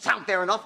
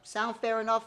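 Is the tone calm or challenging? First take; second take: challenging; calm. First: The tone is challenging, daring the listener to disagree. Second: The tone is calm, cool and reasonable. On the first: The listener is being dared to disagree. The speaker calls it wrong. "Not like you're daring the guy to disagree" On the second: The offer is easy and low pressure to accept. The speaker calls it right. "You use the reasonable man tone"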